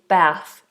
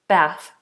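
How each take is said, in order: First: It is said with an American vowel. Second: It is said with an American vowel.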